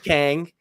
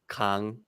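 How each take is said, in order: First: The name is said with English pronunciation. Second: The name is said with Korean pronunciation.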